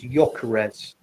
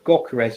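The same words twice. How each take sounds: First: The first G is silent, not pronounced. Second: The first G is pronounced as a hard sound. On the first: The speaker calls it right. "it's a silent G. It's Gyökeres" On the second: The speaker calls it wrong. "It's not Gyökeres"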